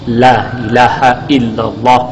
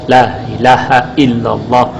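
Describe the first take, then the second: No difference in how they are said.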